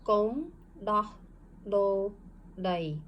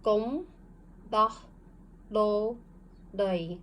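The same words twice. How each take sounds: First: Gom Dah, Lo, Dai, read together with pauses; reading along. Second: Gom, Dah, Lo, Dai, each set apart; syllable by syllable. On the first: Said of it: "read it with me". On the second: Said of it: "this should be read". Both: Shown as a demonstration.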